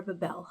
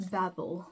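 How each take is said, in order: First: Babel said buh-BELL, stress at the end; second-syllable stress on Babel. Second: Babel said BAB-ul, stress up front; first-syllable stress on Babel. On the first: Reader offering another way to say a book title, Babel as buh-BELL. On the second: Reader offering one way to say a book title, Babel as BAB-ul. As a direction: say Babel to rhyme with "babble". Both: Shown as a demonstration. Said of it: "however you pronounce it".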